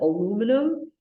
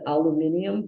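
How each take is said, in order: First: It is said with four syllables, alu-mi-num. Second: It is said with five syllables, alu-mi-ni-um. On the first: "in the United States we pronounce it" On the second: "In England they pronounce it"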